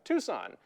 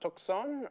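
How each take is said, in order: First: It is pronounced with English-style sounds. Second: It is pronounced with Spanish-style sounds. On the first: This is the form the Americans made. "the Americans couldn't pronounce that, and that's why we have" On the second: This is the form the Spanish settlers made. "they came up with uh"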